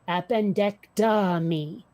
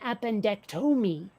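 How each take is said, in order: First: The 'tom' part rhymes with 'bomb'. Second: The 'tom' part rhymes with 'home'. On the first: The speaker calls it right. "how does one pronounce appendectomy?" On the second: The speaker calls it wrong. "it sounded like you were saying appendectomy, like you said tome instead of Tom"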